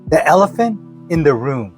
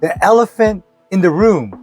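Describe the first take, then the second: First: It is said at normal, softer volume. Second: It is said more loudly.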